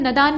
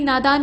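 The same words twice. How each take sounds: First: नदान with short first a; wrong form. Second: नादान with long first aa; correct form. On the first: Teacher showing the mistake, नदान with short first vowel. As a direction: say नदान as "nadaan". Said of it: "नहीं नादान होता है". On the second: Teacher correcting it, नादान with long first vowel. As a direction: say नादान as "naadaan". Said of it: "नादान होता है". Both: Shown as a demonstration.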